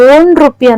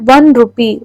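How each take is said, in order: First: The first word begins with a plain O vowel. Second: The first word begins with a W sound. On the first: The speaker calls it wrong. "ಓನ್ rupee ಅಂತಲ್ಲ" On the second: The speaker calls it right. "ಡಬ್ಲ್ಯೂ sound ಬರುತ್ತೆ"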